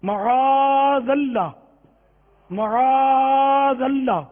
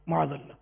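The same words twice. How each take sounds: First: معاذ اللہ very slow and loud, the long aa held; slow careful recitation. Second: معاذ اللہ said quickly as maz alla, softer; soft, clipped معاذ اللہ; mumbled wrong version. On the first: A teacher modelling correct pronunciation, slow and loud. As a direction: stretch معاذ اللہ fully. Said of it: "یہ لکھا ہوا دیکھ کر آپ پڑھیں". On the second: A teacher mimicking the common mistake. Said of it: "معاذ اللہ بھی غلط بولتے ہوں گے". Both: Shown as a demonstration.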